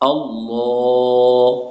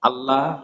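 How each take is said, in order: First: The L sound is heavy and thick. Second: The L sound is light and thin. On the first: The speaker calls it right. "ল পড়তে হবে মোটা করে" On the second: The speaker calls it wrong. "এই যে আমরা এটা গতানুগতিক ভাবে বলি, এটা হচ্ছে আমাদের ভুল উচ্চারণ"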